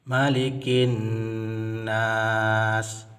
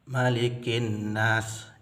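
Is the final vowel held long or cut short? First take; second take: long; short. First: The last vowel is held long. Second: The last vowel is cut short. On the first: The speaker calls it right. "Kita harus panjangkan dulu" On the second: The speaker calls it wrong. "Dia baca pendek saja"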